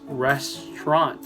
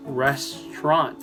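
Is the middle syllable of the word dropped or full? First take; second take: dropped; dropped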